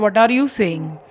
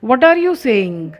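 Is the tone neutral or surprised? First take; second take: neutral; surprised. First: It is said in a plain, neutral tone. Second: It is said in a surprised tone.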